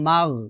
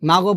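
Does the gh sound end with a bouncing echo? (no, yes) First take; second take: no; yes. First: The gh sound is held without a bounce. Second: The gh sound ends with a bouncing echo. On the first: The speaker calls it right. "বলতে হবে মাগ" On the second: The speaker calls it wrong. "তো আমরা এখানে কলকলা করে ফেলি, ... মাগও বলা যাবে না"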